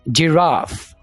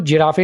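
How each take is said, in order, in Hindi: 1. यह j से शुरू होता है और f पर खत्म होता है। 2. यह j से शुरू होता है और स्वर पर खत्म होता है। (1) "जीम आ गई" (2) "इसको जिराफे नहीं बोलना"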